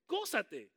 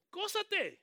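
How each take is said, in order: First: Said in the usual way. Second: High, loud cry of gózate; shouted exhortation. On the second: Real, not acted. Preacher urging the church to rejoice, shouting. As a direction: fling gózate up to the rafters.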